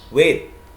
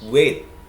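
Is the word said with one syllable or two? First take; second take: one; one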